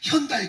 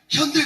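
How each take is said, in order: First: It ends in a two-part 'da-i' glide. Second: It ends in a single 'dae' vowel. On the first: The speaker calls it right. "현다이 그래야 돼요" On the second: The speaker calls it wrong. "현대 그러면 콩글리시고"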